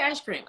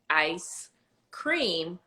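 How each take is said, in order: First: It is said quickly in his own casual way. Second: It is said slowly and carefully, each sound clear. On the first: This is the speaker's habitual pronunciation. "That's how I say ice cream" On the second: The speaker makes an effort to say it properly. "could take my time and say ice cream"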